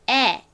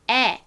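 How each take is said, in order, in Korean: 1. 이 모음은 입을 크게 벌리고 발음합니다. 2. 이 모음은 입을 크게 벌리고 발음합니다.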